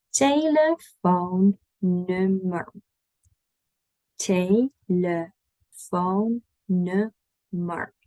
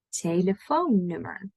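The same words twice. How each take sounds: First: "Telefoonnummer" very slow, syllable by syllable; slow syllable drill. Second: Said in the usual way. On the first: Shown as a demonstration. Teacher models pronunciation for repeating, slow and broken up. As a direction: stretch out each syllable for learners.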